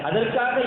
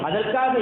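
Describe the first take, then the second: The two takes are said the same way.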